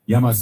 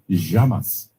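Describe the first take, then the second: First: The double L sounds like an English y. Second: The double L sounds like sh, Argentinian style.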